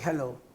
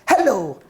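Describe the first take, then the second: First: It is said flatly, without energy. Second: It is said lively, with energy. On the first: The speaker does not want to talk to the person. The speaker calls it wrong. "in a flat voice" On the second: The speaker is willing to engage with the person. The speaker calls it right. "in an enthusiastic voice"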